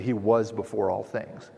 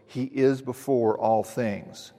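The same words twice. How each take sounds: First: Said in the usual way. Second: "is" held and pressed, the whole line drawn out slowly; slow down and hit "is" as the point; stress on IS, slow. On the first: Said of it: "You should say". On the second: Shown as a demonstration. Pastor sets Paul's "is" against the expected "was", stressing IS. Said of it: "very intentionally wrote".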